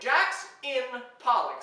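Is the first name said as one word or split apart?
split apart. The first name is split into two parts. Jackfruit is inside a pollock fish.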